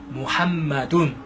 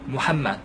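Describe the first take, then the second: First: The name is said as Muhammadun. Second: The name is said as Muhammad. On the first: This is the original Arabic form. "아랍어에 하면 무함마둔" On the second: This is a simplified form of the Arabic. "무함마드라고 쓰시고 발음하실 수 있어요"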